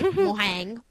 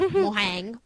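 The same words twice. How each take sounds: First: It is said the Spanish way. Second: The same.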